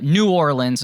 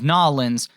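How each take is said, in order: First: The name is said fully, with every syllable. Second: The name is squeezed into two short syllables. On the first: "non-traditional way, the overly formal way" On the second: "instead of Nolans"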